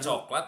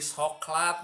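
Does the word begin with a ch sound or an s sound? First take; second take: ch; s. First: The word begins with a ch sound. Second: The word begins with an s sound. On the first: This is the standard form of the word. "Jika coklat" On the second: This is how Sundanese people say it. "jadi soklat mun urang Sunda"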